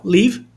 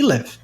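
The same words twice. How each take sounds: First: First live said as "leev"; long EE vowel. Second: LIVE with a lax vowel, near "lev"; short I in live. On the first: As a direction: say live with a long, tense ee, like leave. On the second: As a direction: say live to rhyme with give. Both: Shown as a demonstration. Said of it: "Essa pronúncia".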